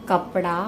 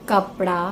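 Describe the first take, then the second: The two takes are said the same way.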